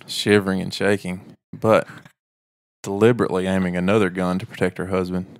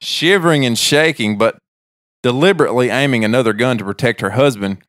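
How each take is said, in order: First: It is read in a sexy, provocative tone. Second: It is read in a plain, neutral tone.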